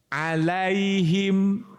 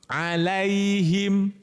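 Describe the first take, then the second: No difference in how they are said.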